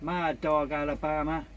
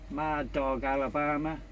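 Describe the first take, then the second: No difference in how they are said.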